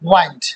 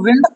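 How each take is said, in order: First: The vowel is a long 'eye' sound. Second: The vowel is a short 'ih' sound. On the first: To finish or wrap up. "और यहाँ पे क्या बोलेंगे इसको, वाइंड" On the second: Moving air, a storm. "यहाँ पे क्या बोलेंगे इसको, विंड"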